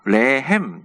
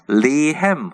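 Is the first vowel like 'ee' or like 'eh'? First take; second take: eh; ee. First: The first vowel sounds like 'eh'. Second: The first vowel sounds like 'ee'. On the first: The speaker calls it right. "그냥 우리 그 전통 발음 레햄이 맞습니다" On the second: The speaker calls it wrong. "영어식 발음 리햄이고"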